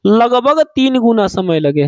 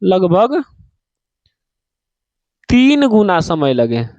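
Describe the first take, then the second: First: Said in the usual way. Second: Low emphatic repeat; slower repeat. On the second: Shown as a demonstration. Teacher repeating the rule for students, low and slow. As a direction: lean on तीन in तीन गुना, slow. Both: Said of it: "कितना?".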